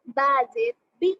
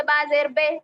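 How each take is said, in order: First: بی with a clear ee sound; correct maroof vowel. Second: بے with a long open e sound, not ee; wrong majhool vowel. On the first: Teacher modelling the correct reading for pupils, clear ee. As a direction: read زیر as بی, bright ee. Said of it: "تو ہم ہر حرف معروف آواز سے پڑھیں گے". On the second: Teacher demonstrating the wrong reading to pupils, open e. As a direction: say زیر as بے like the old wrong way. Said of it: "تو یہ غلط کانسیپٹ ہے پڑھنے کا". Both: Shown as a demonstration.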